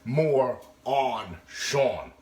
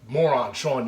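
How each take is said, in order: First: The first two words are kept apart as two. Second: The first two words run together as one word. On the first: It means the host is gaining weight. The speaker calls it right. "It's more on Sean" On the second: It calls the host a fool. The speaker calls it wrong. "It's not moron Sean, you're a fucking moron"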